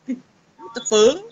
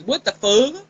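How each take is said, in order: First: Slow What the fuck, fuck trailing off as fu; Cody's cut-off word. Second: What the fuck with fuck cut short, no final k; Cody's clipped version. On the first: Mother mimicking her son's half-said What the fuck, slowly. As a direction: stretch it out and never finish fuck. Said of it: "He won't say the whole word". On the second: Kid imitating Cody, What the fuck cut off at fu. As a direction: say fuck as fu, dropping the end. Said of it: "how Cody says is". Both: Retold or imitated.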